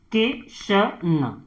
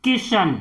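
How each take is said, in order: First: Kishan stretched out slowly and softly; teacher dragging out Kishan so pupils hear each sound; slow, drawn-out reading. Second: Said in the usual way. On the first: Shown as a demonstration. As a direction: spell out Kishan slowly, syllable by syllable, for the class. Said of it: "तो क में किसकी मात्रा है". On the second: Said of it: "अब जैसे हमने लिखा है यहां पर".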